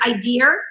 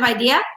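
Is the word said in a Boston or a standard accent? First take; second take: Boston; standard. First: It is said with a Boston accent. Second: It is said with a standard accent. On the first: The speaker calls it wrong. "saying words that I didn't even know were wrong, like the word idea" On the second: The speaker calls it right. "instead of idea"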